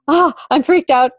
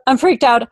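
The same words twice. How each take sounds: First: Higher, panicky quote of a rattled client; imitating a freaked-out client. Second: Higher, slightly calmer echo of the panic; repeating the client's panic. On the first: Client arriving rattled, imitated in a higher panicky voice. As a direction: mimic the client's alarm, pitched up. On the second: Retold or imitated. Client repeating her fear, imitated a bit higher and panicky. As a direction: repeat the alarm, a bit less pitched. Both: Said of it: "arrive occasionally going".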